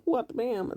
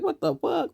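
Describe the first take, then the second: First: Same outraged phrase, dropped quieter with the bleep word; muted mock outrage, bam for the swear; softer self-censored echo. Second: Imitating her, pitched way up in outrage; a squealed, furious what-the-fuck; high mock shriek of outrage; mock outraged shriek. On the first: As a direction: censor yourself, quieter and still high. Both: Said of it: "She get mad".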